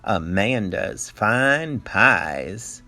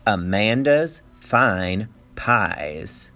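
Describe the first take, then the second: First: "Amanda's Fine Pies." stretched slowly, stress on "Fine", rising; slow sign read. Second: "Amanda's Fine Pies." drawn out very slowly, rising like a question; slow, rising read. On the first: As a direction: spell out the sign slowly for the kids. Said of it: "What did the sign say?". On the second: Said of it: "I say that like it's a question". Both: Shown as a demonstration.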